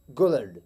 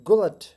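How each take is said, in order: First: गुलड slow and low, final t softened to d; right gullet. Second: गुलट with a crisp final t; loud wrong take, गुलट ending in t; wrong gullet. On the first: Teacher models गुलड with a d sound. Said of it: "टी की बजाय डी को pronounce करेंगे". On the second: Teacher demonstrates the wrong गुलट. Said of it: "इसका wrong pronunciation है". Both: Shown as a demonstration.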